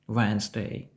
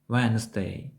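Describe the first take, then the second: The two takes are said the same way.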